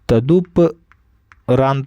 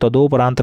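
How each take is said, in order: First: The second vowel sounds like 'u'. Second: The second vowel sounds like 'o'. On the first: The speaker calls it right. "तदुपरांत होता है" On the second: The speaker calls it wrong. "तदोपरांत नहीं होता है"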